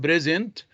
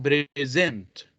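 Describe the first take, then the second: First: "present" as PRE-sent, first syllable stressed. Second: "present" as pre-SENT, drawn out, second syllable stressed. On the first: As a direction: hit PRE- in "present", light second syllable. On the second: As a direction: slowly land on -SENT in "present". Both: Shown as a demonstration. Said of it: "the difference here on the stress".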